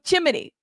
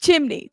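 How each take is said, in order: First: "Chimney" in three syllables, chim-uh-nee; own mistaken pronunciation. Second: "Chimney" in two syllables, chim-nee; "Chimney" copied as chim-nee; corrected pronunciation. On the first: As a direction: slip an extra vowel into "Chimney" after the m. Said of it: "I said chimney". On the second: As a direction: say "Chimney" with no vowel after the m. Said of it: "I did say it wrong". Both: Shown as a demonstration.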